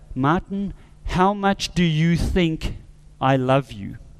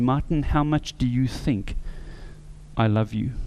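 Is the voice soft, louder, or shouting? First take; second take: louder; soft. First: It is said somewhat louder. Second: It is said at a soft, normal volume.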